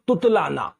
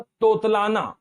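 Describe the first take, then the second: First: "तुतलाना" with a short u first, TU; change the o to u at the start of "तुतलाना"; correct pronunciation. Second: "तोतलाना" with a long o first, TO; wrong pronunciation. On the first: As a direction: say "तुतलाना" as tut-laa-naa. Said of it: "इसका उत्तर होता है". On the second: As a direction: say "तोतलाना" as tot-laa-naa. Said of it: "ये गलत हो जाता है". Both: Shown as a demonstration.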